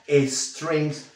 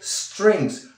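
First: An extra e vowel is added before the s. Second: The word starts directly with the s sound. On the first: The speaker calls it wrong. "no strings. Sí, porque aquí no hay la E fantasma" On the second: The speaker calls it right. "Fíjate que digo strings"

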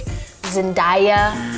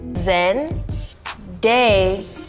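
First: The name's ending rhymes with 'papaya'. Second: The name ends with a plain 'day' sound. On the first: The speaker calls it wrong. "like papaya" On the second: The speaker calls it right. "It's just Day"

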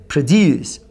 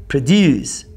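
Both takes have the same delivery.

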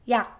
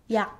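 First: The final sound stops before any release. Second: The final sound stops before any release.

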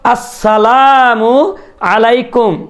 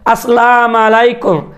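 First: A 'u' vowel is said after 'assalam'. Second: No vowel is said after 'assalam'. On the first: The speaker calls it right. "অথচ আসসালামু আলাইকুম" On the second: The speaker calls it wrong. "আবার অনেকে বলে আসসালাম আলাইকুম"

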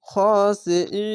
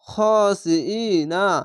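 First: The word ends on a long held vowel. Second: The word ends with a short 'na' syllable. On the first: The reader stops at the end of the word. "যদি এখানে থামেন বা ওয়াকফ করেন তাহলে না উচ্চারণ না হয়ে এরকম হবে" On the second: The reader continues without stopping. "খার জবারে একালিশ টানতে হবে"

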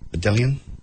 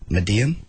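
First: The double L is sounded as an L. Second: The double L is sounded as a Y. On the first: The speaker calls it wrong. "You don't say the L's" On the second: The speaker calls it right. "That's pretty close"

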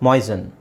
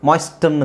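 First: The t sound is silent in the middle. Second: The t sound is pronounced in the middle. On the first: The speaker calls it right. "So ಟಿ silent" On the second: The speaker calls it wrong. "ಮಾಯ್ಸ್ಟನ್ ಅಂತ ಹೇಳಲ್ಲ"

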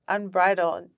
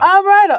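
First: It is said at a normal, quiet volume. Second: It is said loudly.

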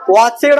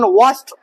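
First: The ending is an extra 'ed' syllable. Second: The ending is an 'st' sound. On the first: The speaker calls it wrong. "वॉचेड म्हणायचं नाही" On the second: The speaker calls it right. "वॉस्ट म्हणलं तर चालते उच्चार"

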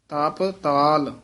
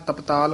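First: The two parts are said as separate words. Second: The two parts run together as one word. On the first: The speaker calls it right. "ਇਹ ਵੱਖਰਾ ਹੀ ਪਾਠ ਕਰਨਾ" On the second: The speaker calls it wrong. "ਇਕੱਠਾ ਨਹੀਂ ਕਹਿ ਦੇਣਾ"

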